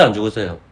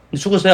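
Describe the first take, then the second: First: 안 stressed, 죽었어요 falls low and soft; falling question. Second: 죽었어요 lifted on a rising tune; rising question. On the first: Preacher quizzing the congregation, low falling question. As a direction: lean on 안, let 안 죽었어요 drop. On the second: Preacher quizzing the congregation, rising question. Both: Shown as a demonstration. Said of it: "question pair".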